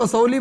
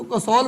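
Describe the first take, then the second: First: "कसौली" with a final ee; "कसौली" as ka-sau-lee; variant pronunciation. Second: "कसौल" ending on the l, two syllables; "कसौल" as ka-saul; variant pronunciation. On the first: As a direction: say "कसौली" in three syllables, ending in lee. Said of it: "कुछ लोग कसौली बोलते हैं". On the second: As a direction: say "कसौल" with no final ee. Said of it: "कुछ लोग उसको कसौल बोलते हैं". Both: Shown as a demonstration.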